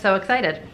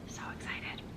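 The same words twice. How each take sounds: First: It is said louder, with more energy. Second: It is said at a normal, quieter volume. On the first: The speaker calls it right. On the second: The speaker calls it wrong.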